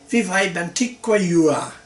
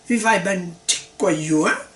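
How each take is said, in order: First: The pitch stays level on the last word. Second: The pitch rises on the last word. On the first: The fruit named is coconut. "that's not the same as" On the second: The fruit named is pineapple. "if you do that in Vietnamese"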